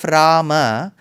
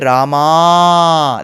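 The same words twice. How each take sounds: First: The final a is short. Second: The final a is lengthened. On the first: The speaker calls it right. "Instead of Rama" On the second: The speaker calls it wrong. "you end up adding an extra a ... That is wrong"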